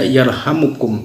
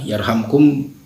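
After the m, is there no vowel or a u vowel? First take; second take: u vowel; no vowel. First: The m is followed by a short u vowel. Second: The m is followed directly by k, no vowel. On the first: It is a prayer asking that mercy be given. "mimnya dhammah" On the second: It answers a command: do this and you will receive mercy. "mimnya sukun"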